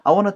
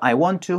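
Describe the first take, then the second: First: The words are run together as wanna. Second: Each word is said separately and fully.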